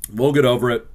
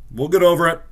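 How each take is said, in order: First: Said in the usual way. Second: Lightly mock-upbeat, pitched higher; mock-cheery reassurance. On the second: Consoling fans after the loss, mock-upbeat. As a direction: brush it off with a forced bright lift.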